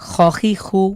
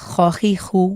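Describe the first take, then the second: The two takes are said the same way.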